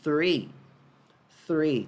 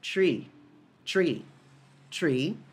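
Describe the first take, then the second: First: "three" with tongue tip between the teeth. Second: "tree" with a plain T, no tongue between teeth. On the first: Teacher shows students the th in "three". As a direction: bite the tongue lightly for the th in "three". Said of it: "Colocando a pontinha da língua entre os dentes lá no T H". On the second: Teacher shows students plain T in "tree". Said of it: "A pronúncia disso é". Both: Shown as a demonstration.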